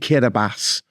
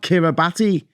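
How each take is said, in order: First: The 'ti' is said with an S sound. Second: The 'ti' is said with a T sound. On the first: The speaker calls it right. "they pronounce the T I as an S" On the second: The speaker calls it wrong. "which is actually spelt Kiribati"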